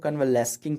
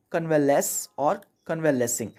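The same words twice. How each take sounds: First: कन्वेलेस्किंग with a hard k after the s; common misreading. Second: Teacher sounds out कन्वेलेस और कन्वेलेसिंग with s alone; correct pronunciation demo. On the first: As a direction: misread it as कन्वेलेस्किंग, ending "-les-king". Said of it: "अक्सर लोग कन्वेलेस्किंग पढ़ते हैं". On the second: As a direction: carefully model कन्वेलेस और कन्वेलेसिंग, ending "-les" and "-les-ing". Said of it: "इसको पढ़ते हैं". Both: Shown as a demonstration.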